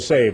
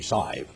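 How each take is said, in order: First: The word is said with a standard accent. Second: The word is said with an East Texas accent. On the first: "they don't say save" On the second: "They say it in East Texas ... they say save. S-I-V-E"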